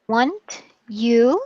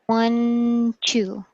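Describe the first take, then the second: First: The t and y sounds stay separate. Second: The t and y merge into a ch sound.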